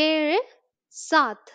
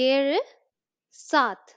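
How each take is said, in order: No difference in how they are said.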